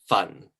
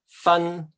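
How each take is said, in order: First: The syllable is said in the fourth tone. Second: The syllable is said in the first tone. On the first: It means to burn. "the fourth one is to burn something" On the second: It means to separate. "this means um, to separate"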